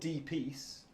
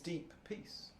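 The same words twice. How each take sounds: First: The two P sounds run together into one. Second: Both P sounds are pronounced clearly and separately. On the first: The speaker calls it wrong. "it isn't deep peace" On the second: The speaker calls it right. "There are two P's"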